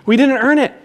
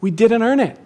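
First: "We didn't earn it" said louder and higher, rising on "earn"; louder call for the congregation. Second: Said in the usual way. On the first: Shown as a demonstration. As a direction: lead the room, lifting the voice. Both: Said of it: "Say it with me".

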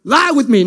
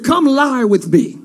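First: Offhand street version of the line; modern casual come-on. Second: Put-on slow, solemn old-scripture line; the brother says it like old scripture, slowly; ancient biblical come-on. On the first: Acted. Preacher updates the brother's line, casual and offhand. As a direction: toss it off like a modern pickup line. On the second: Brother to sister in old scripture, slow and solemn. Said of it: "a very three hundred way to say".

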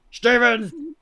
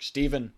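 First: Loud, high yell of a name; director's yell. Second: Lightly imitated director calling a name; first call to an assistant, still restrained. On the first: Retold or imitated. Director losing patience with Steven on a fake phone, loud yell. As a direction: imitate a director bellowing into a megaphone. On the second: Director on a fake phone to Steven, restrained call. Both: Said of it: "He's, like, yelling into a megaphone".

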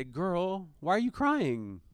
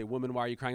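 First: Put-on tender, higher fatherly girl; endearing. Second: Said in the usual way. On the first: Father gently asking his crying daughter, endearing. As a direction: coax her gently like a loving dad. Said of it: "when I'm talking to Olivia and I say". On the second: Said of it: "the word woman here".

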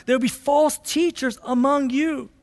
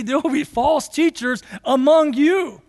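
First: Said in the usual way. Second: Lightly voiced apostle, earnest and pressing; voicing Peter. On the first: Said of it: "That's the very next verse". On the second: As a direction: deliver it as Peter's own warning. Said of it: "Imagine Peter saying that".

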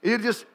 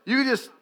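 The two takes are said the same way.

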